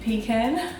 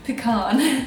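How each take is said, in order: First: The word is said with an Australian pronunciation. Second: The word is said with an American pronunciation. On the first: "I'm going to say this in a very Aussie way" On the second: "a lot of Americans say pecan"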